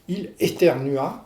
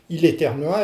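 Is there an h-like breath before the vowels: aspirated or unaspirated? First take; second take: aspirated; unaspirated. First: The vowels start with a light breathy h. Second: The vowels start cleanly with no breathy h.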